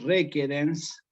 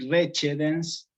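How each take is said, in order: First: The word uses classical Latin pronunciation. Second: The word uses ecclesiastical Latin pronunciation. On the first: "en clásico" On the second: "en eclesiástico"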